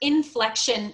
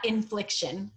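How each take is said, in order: First: The second syllable has the vowel of 'flek'. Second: The second syllable has the vowel of 'flik'. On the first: The speaker calls it right. "it's actually inflection" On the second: The speaker calls it wrong. "not infliction"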